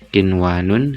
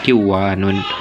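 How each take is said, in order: First: The n before the w is clearly pronounced. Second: The n is dropped, merging into the w. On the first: The speaker calls it right. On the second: The speaker calls it wrong.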